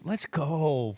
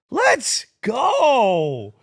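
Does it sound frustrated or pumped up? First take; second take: frustrated; pumped up. First: It sounds frustrated and annoyed. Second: It sounds excited and pumped up.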